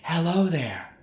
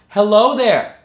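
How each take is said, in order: First: The voice sounds loose and airy. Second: The voice sounds balanced, neither pressed nor airy. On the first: The speaker calls it wrong. "Too loose" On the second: The speaker calls it right. "Just right"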